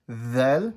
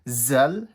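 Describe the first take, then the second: First: The letter name begins with a soft th sound. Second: The letter name begins with a z sound. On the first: The speaker calls it right. "making sure this is soft" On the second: The speaker calls it wrong. "not pronounced as zal, z, z sound"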